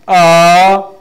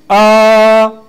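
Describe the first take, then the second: First: It is said with the second tone. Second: It is said with the first tone. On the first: "Second, we say ah" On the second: "First, we said ah"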